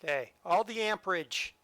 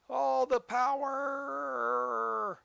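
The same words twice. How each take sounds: First: Said in the usual way. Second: Drawn-out high, grand "All the power"; dramatic power call. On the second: Acted. Player hammering the throttle, a slow, grand "All the power". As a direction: stretch "All the power" out slowly like a villain. Revving the train up.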